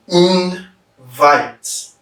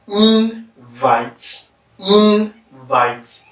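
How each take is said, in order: First: "Invite" as in... VITE, second syllable stressed; verb stress. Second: "invite" as IN-vite, first syllable stressed; noun stress. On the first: Teacher demonstrating the verb, "Invite" stressed on the second syllable. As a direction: split "Invite" in two, weight on "vite". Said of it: "Because vite is stressed". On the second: Teacher demonstrating the noun, "invite" stressed on the first syllable. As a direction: hit "in" of "invite" higher, let "vite" fall. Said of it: "because in is stressed". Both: Shown as a demonstration.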